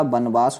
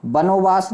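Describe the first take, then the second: First: बनवास with no middle o; correct form. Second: बनोवास with an extra o; wrong form. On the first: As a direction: say बनवास as ban-vaas. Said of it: "होता है बच्चे". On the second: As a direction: say बनोवास as ba-no-vaas. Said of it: "नहीं होता मेरे भाई". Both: Shown as a demonstration.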